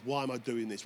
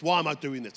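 First: Said in the usual way. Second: The repeat louder and pushed; retold angry cry. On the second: Preacher retells angrily asking God why. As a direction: hurl the question up at God. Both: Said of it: "And I was so angry".

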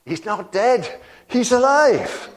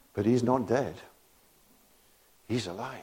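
First: Much higher and louder, bursting with a laugh; joyful proclamation. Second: Said in the usual way. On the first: Real, not acted. Preacher proclaiming to the church that Jesus lives, high laughing shout. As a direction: shout the news like it can't be held in.

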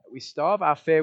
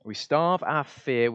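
First: Fear punched, quicker and a bit louder; stress on fear. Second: Starve drawn out slowly with a falling close; slow stress on starve. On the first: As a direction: hit the word fear hard. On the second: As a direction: lean slowly into the word starve. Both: Shown as a demonstration.

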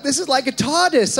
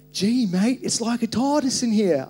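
First: High, loud retold amazement, no put-on accent; amazed visitor. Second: Higher, louder Australian exclamation; Australian accent. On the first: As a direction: exclaim it like a wowed visitor. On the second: Retold or imitated. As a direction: imitate an amazed visitor with an Australian accent. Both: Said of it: "I don't know why that was Australian".

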